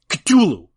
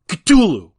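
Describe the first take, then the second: Both takes have the same delivery.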